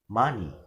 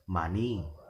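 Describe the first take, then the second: First: The stress is on the first syllable. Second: The stress is on the second syllable. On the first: The speaker calls it right. "the stress will be given in the first uh, syllable" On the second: The speaker calls it wrong. "We will never pronounce it as money"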